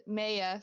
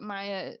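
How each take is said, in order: First: "Maya" said MAY-uh; name correction. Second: "Maya" said MY-uh; name slip. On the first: Game master correcting a dog's name, "Maya" pronounced MAY-uh. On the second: Game master naming a dog, "Maya" pronounced MY-uh. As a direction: say "Maya" with an "eye" vowel, MY-uh. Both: Real, not acted. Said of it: "sorry, who's Ma-, Maya".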